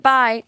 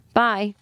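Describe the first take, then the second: First: "Bye." thrown out higher and louder, with mock flair; dramatic bye. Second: Said in the usual way. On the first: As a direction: fling the "Bye." like a teen signing off a note. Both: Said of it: "just like".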